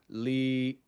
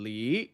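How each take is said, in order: First: The pitch stays level. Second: The pitch goes up then down. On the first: "The second one is flat" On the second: "the fourth one goes up and down"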